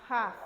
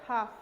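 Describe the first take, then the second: The two takes are said the same way.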